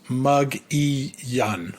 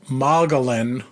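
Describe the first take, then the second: First: The double L is said as a Y sound. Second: The double L is said as an L sound. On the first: The speaker calls it right. "apparently it's pronounced Mug-E-Yun" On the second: The speaker calls it wrong. "spelled out like Mogollon"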